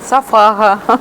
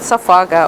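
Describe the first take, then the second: First: It is said with a Ukrainian accent. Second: It is said with a Russian accent. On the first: The speaker is from Ukraine. "украинцы скажут" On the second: The speaker is from Russia. "русские скажут"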